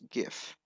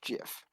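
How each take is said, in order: First: The word begins with a hard g sound. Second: The word begins with a soft j sound. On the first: This is how most people say it. The speaker calls it right. "the whole population agrees that it's GIF" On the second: This is how the creator says it. The speaker calls it wrong. "the creator thinks it's GIF"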